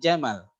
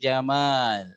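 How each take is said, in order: First: The vowel in the last word is short. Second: The vowel in the last word is long. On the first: It means camel. The speaker calls it wrong. "kalau jamalnya dibaca pendek" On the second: It means beauty. The speaker calls it right. "menyukai keindahan"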